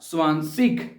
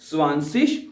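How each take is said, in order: First: The word ends with a hard 'g' sound. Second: The word ends with a soft 'sh'-like sound. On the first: "दोनों लफ्ज प्रोनाउंस हो सकते हैं" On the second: "दोनों लफ्ज प्रोनाउंस हो सकते हैं"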